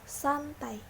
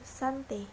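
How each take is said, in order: First: The word ends with an ai diphthong. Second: The word ends with a single e vowel. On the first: The speaker calls it right. "Lafal bakunya" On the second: The speaker calls it wrong. "lafal tidak bakunya"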